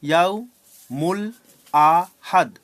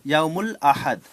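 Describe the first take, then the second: First: "ইয়াউ মূল আ হাদ" with a clear pause between syllables. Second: Said in the usual way. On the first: Shown as a demonstration. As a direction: split "ইয়াউ মূল আ হাদ" into separate beats. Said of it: "ভেঙে ভেঙে পড়বো". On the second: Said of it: "বড় শব্দকে আমরা ভেঙে ভেঙে পড়বো".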